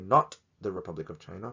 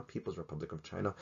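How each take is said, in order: First: "Not" hit first, the rest of the line lighter; stress on NOT. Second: "People's" set apart, the rest dropping much softer; stress on PEOPLE'S. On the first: Correcting viewers, "Not" stressed as the key word. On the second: Correcting viewers, "People's" stressed and the rest trailing off soft. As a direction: mark "People's" as the key word. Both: Shown as a demonstration.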